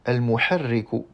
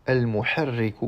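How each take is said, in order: The two takes are said the same way.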